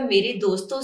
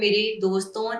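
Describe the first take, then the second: First: The final vowel of 'doston' is not nasalized. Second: The final vowel of 'doston' is nasalized. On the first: The friends are addressed directly. "फिर नून गुना नहीं आएगा" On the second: The friends are spoken about. "ये नून गुना लगा"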